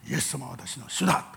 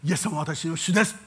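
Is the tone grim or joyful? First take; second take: grim; joyful. First: It is said in a grim, frowning tone. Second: It is said in a light, joyful tone. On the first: The confession sounds like a heavy duty. The speaker calls it wrong. "しかめ面しません。…こういう言い方しないわけです。" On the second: The confession sounds glad and attractive. The speaker calls it right. "軽やかに喜びを負って言う"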